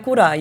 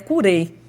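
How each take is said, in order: First: The word ends with an 'eye' sound. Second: The word ends with an 'ay' sound. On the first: This is the Brazilianized pronunciation. "não é curai. E a gente abrasileirou para curai" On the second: This is the original Latin pronunciation. "A pronúncia em latim é até curei"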